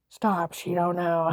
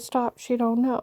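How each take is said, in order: First: Slow, stretched mocking quote; drawn-out mimicry. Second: Said in the usual way. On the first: Mimicking the agent who laughed at her, drawn-out mockery. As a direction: drag the words out slowly.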